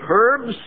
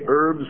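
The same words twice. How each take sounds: First: The word begins with an H sound. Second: The word begins without an H sound. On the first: "pronouncing the H and say dinner of herbs" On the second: "herbs without pronouncing the H"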